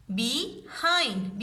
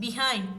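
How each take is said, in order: First: Be-hind drawn out in two beats; split into syllables. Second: Said in the usual way. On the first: Shown as a demonstration. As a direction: say behind slowly, syllable by syllable. (behind को धीरे धीरे दो हिस्सों में बोलें) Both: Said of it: "इसको break किया जा सकता है".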